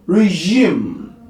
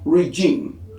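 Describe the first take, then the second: First: The g is said as a zh sound. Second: The g is not said as a zh sound. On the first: The speaker calls it right. "zh, a voice post alveolar fricative" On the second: The speaker calls it wrong. "not regime"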